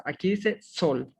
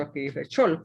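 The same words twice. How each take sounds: First: Sol read with a clear s sound, dot over the letter. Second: Chol read with a ch sound, not sol. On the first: Teacher reads the Hebrew word aloud to class, clear s. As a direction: say sol, s as in Spanish. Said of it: "se combinan en un solo y dice sol". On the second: Teacher contrasts the word for the class, ch sound. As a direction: say chol with a ch at the start. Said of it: "el punto que está en el lado izquierdo es una O". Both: Shown as a demonstration.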